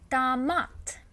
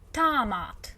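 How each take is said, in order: First: The stress is on the second syllable. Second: The stress is on the first syllable. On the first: The speaker calls it right. "A stressed in this word" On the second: The speaker calls it wrong. "they accidentally start emphasizing O"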